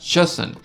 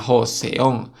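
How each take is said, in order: First: The word begins with a ch sound. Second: The word begins with a soft j sound. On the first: The speaker calls it right. "se pronuncia Choson" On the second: The speaker calls it wrong. "pero no se pronuncia Joseon"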